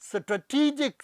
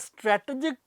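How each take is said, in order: First: The stress is on the second syllable. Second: The stress is on the first syllable. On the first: The speaker calls it right. "ਸਹੀ pronunciation ... primary stress ... ਟੀ ਦੇ ਉੱਤੇ" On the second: The speaker calls it wrong. "ਮੈਂ stress ਦਿੰਦਾ ਸੀ ਸਟ੍ਰੈ ਦੇ ਉੱਤੇ"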